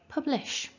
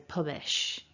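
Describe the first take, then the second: First: The L sound is clearly formed in the middle. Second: The L sound is missing from the middle. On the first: The speaker calls it right. "are you getting a nice sh at the end of your word publish" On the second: The speaker calls it wrong. "like the L doesn't really get formed"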